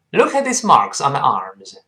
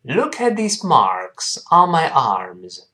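First: The sentence is spoken quickly. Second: The sentence is spoken slowly. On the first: "我们再读快点。" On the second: "跟老师慢慢读一下这句话。"

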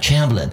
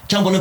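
First: The name begins with an English-like ch sound. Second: The name begins with a Chinese zh sound. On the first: The name is said the way English speakers say it. "枪伯伦这么来读" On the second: The usual dubbed Chinese rendering of the name. "张伯伦把他读成枪伯伦"

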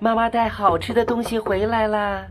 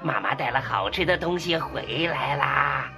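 First: The voice is soft and sweet. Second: The voice is rough and hoarse.

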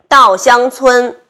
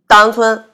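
First: Every syllable is clearly pronounced. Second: The middle syllable is swallowed.

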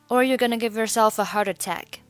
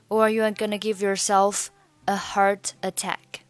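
First: The words are run together smoothly. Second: The words are said separately without linking. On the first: "Yourself a heart attack" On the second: "你可以选择不连读"

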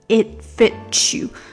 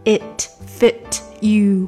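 First: The phrase is said quickly and smoothly. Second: The phrase is said slowly and carefully.

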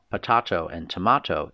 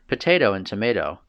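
First: It is said with a British accent. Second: It is said with an American accent.

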